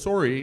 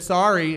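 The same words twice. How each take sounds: First: It is said with a Canadian accent. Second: It is said with an American accent.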